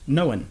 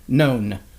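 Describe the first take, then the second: First: The word is said as two syllables. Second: The word is said as one syllable. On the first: "pronounce that word with two syllables" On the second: "There's no reason that that should be more than one syllable"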